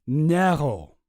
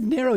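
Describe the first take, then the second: First: "Narrow" with a German accent. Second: Said in the usual way. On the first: Shown as a demonstration. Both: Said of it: "He's got a German accent".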